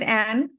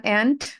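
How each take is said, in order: First: And said as "an", no D; final D dropped. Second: And ending on a clear D; final D sounded. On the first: Teacher imitating the student's slip, and without its D. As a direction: leave the D off and. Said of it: "perhaps you said". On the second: Teacher correcting the student, and with its D. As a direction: finish and with an audible D. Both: Shown as a demonstration.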